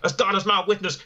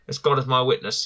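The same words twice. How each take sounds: First: It is said in a put-on announcer voice. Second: It is said in his ordinary speaking voice.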